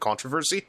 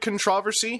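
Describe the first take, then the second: First: The word is said the American way. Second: The word is said the British way. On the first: The speaker calls it wrong. "instead of controversy" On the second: The speaker calls it right. "Once I heard controversy"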